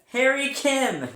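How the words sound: It is said with strong conviction.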